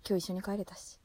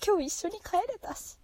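First: Said in the usual way. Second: Much higher, giddy with joy; thrilled. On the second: Real, not acted. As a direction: say it giddy and delighted. Repeats happy memory.

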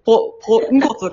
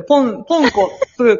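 First: ポンコツ broken right after ポ, then ンコツ run together; early break in ポンコツ. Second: ポンコツ broken after ポン, restarted with a gap before the last sound; pause inside ポンコツ. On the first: Defending the radio name, ポンコツ split right after ポ. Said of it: "かもしれへんのに". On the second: Defending the radio name, ポンコツ split after ポン. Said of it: "かもしれへんし". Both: Shown as a demonstration.

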